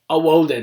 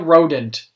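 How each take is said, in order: First: The R sound is replaced with a W sound. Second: The word begins with a clear R sound. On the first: This is how the character himself says it. The speaker calls it wrong. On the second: This is the word as it really is. The speaker calls it right.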